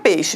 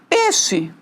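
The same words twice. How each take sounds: First: The vowel is said as the diphthong 'ei'. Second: The vowel is said as a plain 'e'.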